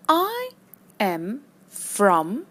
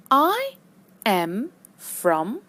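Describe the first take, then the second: No difference in how they are said.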